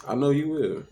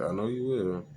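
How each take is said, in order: First: High, loud and sharp; the unfiltered version, nearly shouted; what he really thought. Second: Said in the usual way. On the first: Retold or imitated. Thinking it hard at the girlfriend, loud and high. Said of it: "That's why I ain't say that part out loud". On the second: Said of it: "but I said".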